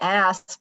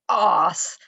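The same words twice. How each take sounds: First: The word is said with an American accent. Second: The word is said with a British accent. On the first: "Americans say ass" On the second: "ass has a certain gravitas"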